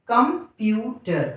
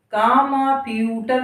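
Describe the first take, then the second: First: Said in the usual way. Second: कामाप्यूटर with long open vowels after क and म; wrong full vowels. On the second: Shown as a demonstration. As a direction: say कामाप्यूटर as "kaa-maa-pyootar". (कामाप्यूटर में क और म को खींचकर पूरा बोलते हुए) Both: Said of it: "कामाप्यूटर नहीं है".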